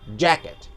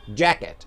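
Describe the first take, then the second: The two takes are said the same way.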